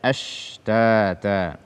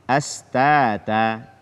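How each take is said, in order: First: The middle consonant is a spread sh sound. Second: The middle consonant is a plain s sound. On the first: The speaker calls it right. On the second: The speaker calls it wrong. "menggantinya dengan sin"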